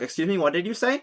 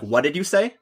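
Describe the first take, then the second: First: It sounds honest and curious. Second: It sounds intimidating and confrontational.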